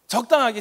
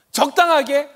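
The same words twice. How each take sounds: First: 적당하게 with a plain falling close; flat statement. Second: 적당하게 asked with a high scornful rising lift; 적당하게 lifted high and questioning. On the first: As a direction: set 적당하게 down flatly. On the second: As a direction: toss 적당하게 up as a mocking question. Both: Shown as a demonstration.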